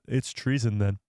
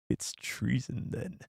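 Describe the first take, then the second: First: Said in the usual way. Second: Soft, slow, menacing emperor voice; dark lord impression. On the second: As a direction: draw it out like a sinister chancellor. Villain line after impression bit.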